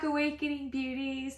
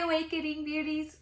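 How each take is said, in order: First: It is said more calmly with lower energy. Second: It is said loudly with high energy.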